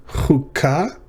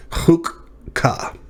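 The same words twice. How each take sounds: First: Chukah slowly, with a throaty ch; slow first read. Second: Chukka with the k doubled; syllables split. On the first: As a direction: read Chukah aloud carefully for students. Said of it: "Next up is Chukah". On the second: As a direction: show the doubled kaf in Chukka. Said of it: "two syllables". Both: Shown as a demonstration.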